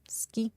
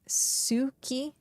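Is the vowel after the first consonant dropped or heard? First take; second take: dropped; heard. First: The first vowel is dropped, almost silent. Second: The first vowel is clearly heard. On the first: The speaker calls it right. "it's just ski" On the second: The speaker calls it wrong. "I used to say Suki for moon"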